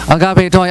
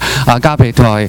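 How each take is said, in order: First: It is said at a somewhat low pitch. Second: It is said at the lowest pitch. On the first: "越讲声调越高" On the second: "越讲声调越高"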